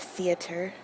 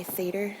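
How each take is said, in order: First: "theater" said in three syllables, thee-uh-ter; standard theater. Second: "theater" said in two syllables, THEE-ter; her own theater. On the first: Setting her version against the usual, she says theater in three syllables. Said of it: "instead of theater". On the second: Showing her own word, she says theater in two syllables. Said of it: "I say theater". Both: Shown as a demonstration.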